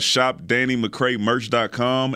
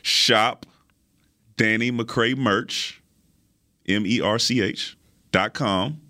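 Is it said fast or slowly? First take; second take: fast; slowly. First: It is said at a quick, normal pace. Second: It is said slowly and carefully.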